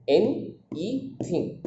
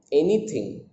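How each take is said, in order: First: "N, E thing" broken into three slow, separate syllables; softly spaced-out "N, E thing", one beat per syllable. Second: Said in the usual way. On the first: Shown as a demonstration. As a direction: say "N, E thing" slowly with a gap after each syllable. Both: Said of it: "These are the syllables".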